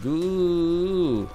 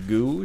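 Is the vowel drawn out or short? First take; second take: drawn out; short. First: The vowel is long and drawn out. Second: The vowel is short and clipped. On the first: "starting to make longer syllables" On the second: "instead of saying just, like"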